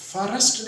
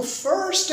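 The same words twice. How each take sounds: First: फॉरेस्ट said fa-rast, extra vowel inside; wrong two-syllable first. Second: फर्स्ट as one high beat, "furst"; one-syllable first. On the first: Teacher rejecting learners' error in "first", said with two syllables. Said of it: "फॉरेस्ट नहीं है भाई". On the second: Teacher correcting learners on "first", said as one syllable. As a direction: say फर्स्ट with no vowel before the s. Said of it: "एक syllable है फर्स्ट". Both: Shown as a demonstration.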